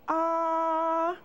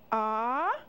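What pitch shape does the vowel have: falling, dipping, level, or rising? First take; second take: level; rising. First: The pitch stays high and level. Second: The pitch rises from middle to high. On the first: "The first tone has a straight line across" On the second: "The second tone goes up"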